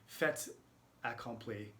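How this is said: It has a mild, softened French accent.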